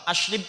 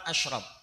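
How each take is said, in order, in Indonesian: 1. Suku kedua punya vokal i. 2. Suku kedua punya vokal a. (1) "Ashrib pun tidak ada masalah" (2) "yang paling tepat ashrab"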